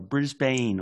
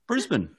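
First: It is said with a typical American pronunciation. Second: It is said with the local pronunciation. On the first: The speaker calls it wrong. "Most Americans would say Brisbane" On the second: The speaker calls it right. "that's excellent pronunciation of Brisbane"

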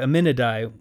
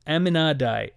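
First: The name is said like Abinadi. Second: The name is said unlike Abinadi.

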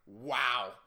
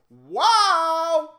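First: The word is said quietly. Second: The word is said loudly.

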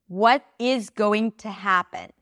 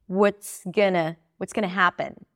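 First: Every word is pronounced fully and clearly. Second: Only happen stands out; other words are reduced.

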